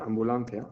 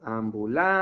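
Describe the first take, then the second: First: Said in the usual way. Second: Ambulancia with LAN stretched long and stressed. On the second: Shown as a demonstration. Teacher finding the tonic syllable for pupil, stretched LAN in Ambulancia. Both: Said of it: "¿Y cómo decimos esto?".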